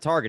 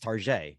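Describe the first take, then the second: First: It is said with a plain English pronunciation. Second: It is said with a fancy French-style pronunciation. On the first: "instead of Target" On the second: "it just makes it fancy"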